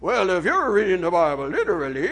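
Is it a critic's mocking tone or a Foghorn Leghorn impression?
Foghorn Leghorn. It is said as a Foghorn Leghorn impression.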